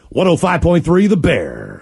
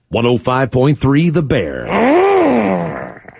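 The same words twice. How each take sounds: First: It is said in a plain, neutral way. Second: It is said in a meaner, harsher way.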